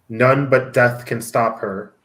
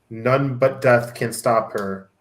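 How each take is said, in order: The two takes are said the same way.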